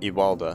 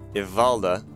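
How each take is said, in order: First: The name is said with a w sound. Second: The name is said with a v sound. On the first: The speaker calls it wrong. "not Iwalda" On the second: The speaker calls it right.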